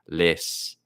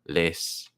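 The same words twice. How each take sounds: Both takes have the same delivery.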